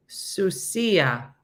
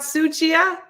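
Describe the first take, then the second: First: Sucia with an s sound, soo-SEE-ah; correct pronunciation. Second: Sucia with a ch, SOO-chee-ah, high and loud; high, incredulous "sucia" as soo-chee-ah; mistaken pronunciation. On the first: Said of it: "That's how you say it". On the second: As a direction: say "sucia" with ch in the middle, in loud disbelief. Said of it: "That's how you say it, not sucia?". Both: Shown as a demonstration.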